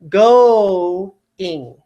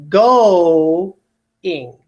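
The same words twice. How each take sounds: First: The two vowels are said as separate syllables. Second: The two vowels are said as separate syllables.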